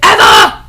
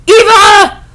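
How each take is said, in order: First: Said in the usual way. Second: High, loud shrieked "Eva!"; excited squeal. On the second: Acted. Greeting a friend across the room, a high excited "Eva!" squeal.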